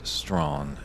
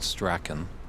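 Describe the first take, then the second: First: The name is said as one syllable, Strawn. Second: The name is said as spelled, two syllables. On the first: The speaker calls it right. "but in fact it is Strawn" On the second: The speaker calls it wrong. "you would pronounce it Strachan, just the way it's spelled"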